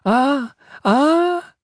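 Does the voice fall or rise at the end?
rise. A falsetto cry ending with a questioning rise.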